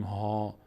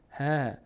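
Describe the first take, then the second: First: ها with a full, dark, back "aa"; heavy vowel. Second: ه drawn out as a thin, front "haa"; light vowel. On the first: Teacher showing what we do not say, heavy vowel on ها. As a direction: say ها heavy, like "haw". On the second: Teacher modelling how the letter is read, light vowel on ه. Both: Shown as a demonstration.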